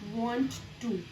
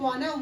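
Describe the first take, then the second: First: The two words are said separately and fully. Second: The two words blend into one short word.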